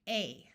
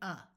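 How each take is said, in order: First: The vowel is long, like the letter name. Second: The vowel is short and reduced, like uh. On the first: "we are going to use the vowel's long sound" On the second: "when we're in a rush, we wind up saying a"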